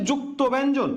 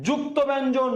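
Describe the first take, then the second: No difference in how they are said.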